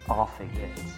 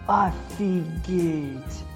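First: It is said with an English accent. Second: It is said with a Russian accent.

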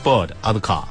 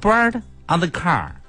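First: It is said in a British accent without R. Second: It is said in an American accent with R.

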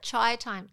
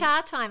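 First: The first word ends with an 'ee' glide. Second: The first word ends on a plain 'ah' vowel. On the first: The speaker calls it wrong. "I always call it chai time" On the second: The speaker calls it right.

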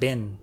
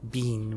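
First: The vowel is short, like in 'bin'. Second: The vowel is long, like in 'bean'. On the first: This is how Americans say it. The speaker calls it right. "we say it bin" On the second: This is how British speakers say it. The speaker calls it wrong. "we don't say it bean"

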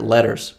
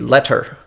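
First: The middle consonant sounds like a soft D. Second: The middle consonant is a crisp, clear T. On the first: "like I just did it, ... they sound like a soft D" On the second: "if you were to be very prescriptive about the way that that is pronounced"

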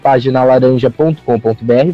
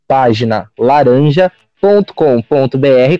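First: It is said at a faster pace. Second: It is said at a slower pace.

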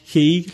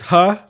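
First: The vowel is a long 'ee' sound. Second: The vowel is a short 'uh' sound. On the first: The speaker calls it wrong. "which I pronounced he. Like, you know, an American" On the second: The speaker calls it right. "But it's Huh"

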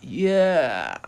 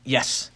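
First: The word is said slowly and flatly. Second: The word is said quickly and excitedly. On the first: The speaker calls it wrong. "it's not like this" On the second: The speaker calls it right. "quick and to the point, so it's yes, kind of excited"

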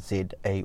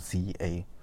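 First: The letter Z is said the non-American way. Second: The letter Z is said the American way.

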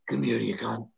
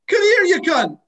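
First: It sounds threatening and aggressive. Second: It sounds warm and friendly.

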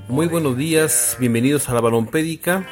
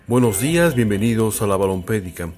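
First: It is said in a normal voice. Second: It is said in a deeper, thicker voice.

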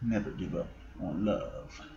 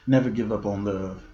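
First: It is said in a put-on sexy voice. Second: It is said in his ordinary voice.

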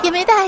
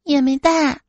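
First: It is said quickly. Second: It is said at normal speed.

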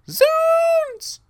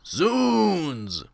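First: It is yelled very loudly. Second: It is said weakly, without force.

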